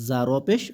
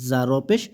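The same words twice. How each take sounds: No difference in how they are said.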